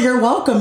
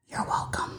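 First: Higher, fully voiced after a laugh; seriously. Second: Unvoiced whisper, much softer; whispered aside. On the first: Insisting to those who know her, seriously, out loud. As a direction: say it out loud and mean it. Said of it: "no, seriously". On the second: Telling those who know her they're welcome, whispered. Joking aside, then laughs. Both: Real, not acted.

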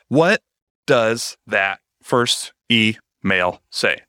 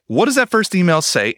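First: Drawn-out, dramatic question; dramatic slow question. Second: Said in the usual way. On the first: Shown as a demonstration. Host mocking her own dramatic slow delivery. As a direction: stretch the words out slowly for drama. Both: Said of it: "I kinda hate it when I talk like that".

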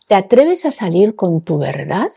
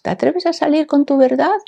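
First: Said in the usual way. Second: High, lifted mock quiz question; mock test question. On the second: Host imagining the question on a test, high mock-quiz voice. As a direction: read it out like a test item, pitched well up. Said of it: "Si esto fuera un test".

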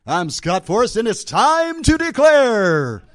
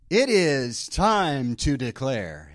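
First: Big booming game show announce, higher and louder; game show host voice. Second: Slow, drawn-out game show announce; light game show host announcer. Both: Pretend. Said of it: "Sound like a game show host".

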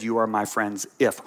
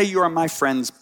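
First: "You are my friends if" with "if" held as the key word; stress on if. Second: "You are my friends" said as a complete, falling full stop; closed statement. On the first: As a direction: land the weight on "if" to show the condition. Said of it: "He said". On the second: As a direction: finish the line flatly and firmly, no condition. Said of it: "He didn't say ... period". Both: Shown as a demonstration.

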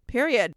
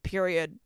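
First: "Period." again, louder and higher as the final word; a louder, punchier "Period."; emphatic repeat. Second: Said in the usual way. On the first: Retold or imitated. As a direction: land the second "Period." hard. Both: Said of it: "And I was like".

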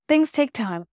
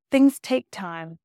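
First: Said in the usual way. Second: "Things take time" said slowly and deliberately; slow repeat. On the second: Real, not acted. Slowed repeat of her phrase.

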